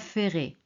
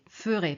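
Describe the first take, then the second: First: The first syllable sounds like 'fair'. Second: The first syllable has a short, weak vowel. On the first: The speaker calls it wrong. "pas ferai" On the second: The speaker calls it right. "on prononce je ferai, ferai"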